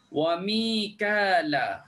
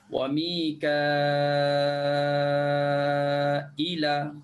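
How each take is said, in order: First: Said plainly with no glottal stop or long vowel. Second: A long vowel and a glottal stop before the end.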